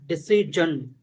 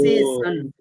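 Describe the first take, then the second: First: The middle consonant sounds like a J. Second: The middle consonant sounds like an S. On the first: "I was pronouncing like J" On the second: "So either J or S"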